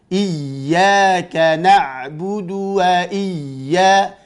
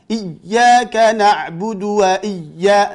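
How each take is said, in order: First: The doubled ya is held and flows smoothly. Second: The doubled ya is cut off abruptly. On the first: The speaker calls it right. "tapi jalankan dulu" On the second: The speaker calls it wrong. "jangan diputus, nanti jadi seperti sakta"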